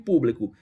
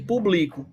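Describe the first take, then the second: First: The stress is on the third-to-last syllable. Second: The stress is not on the third-to-last syllable. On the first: It is the word meaning public. "E com acento" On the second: It is a different word with another meaning. "se você tirar o acento, muda a palavra"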